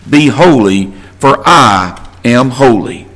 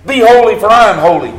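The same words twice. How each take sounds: First: Low, slow, weighty scripture reading; quoting the verse slowly, low and measured. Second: Louder and higher, punching HOLY; emphatic repeat. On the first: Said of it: "because it is written". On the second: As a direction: hit "holy" hard and bright. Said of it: "Be different. Be like God". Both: Shown as a demonstration.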